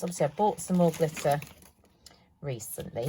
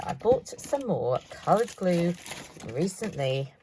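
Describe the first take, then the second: First: Said in the usual way. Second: "coloured glue" said slowly as the fix; slow down to land "coloured glue" correctly; correcting herself. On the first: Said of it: "not glitter, keep saying glitter". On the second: Shown as a demonstration. Crafter fixing her slip to viewers, careful stress. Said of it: "keep saying glitter".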